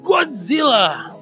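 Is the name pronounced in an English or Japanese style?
English. The name is said in an English-style pronunciation.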